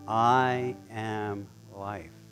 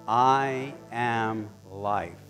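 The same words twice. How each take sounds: First: It is said a little softer. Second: It is said at normal volume.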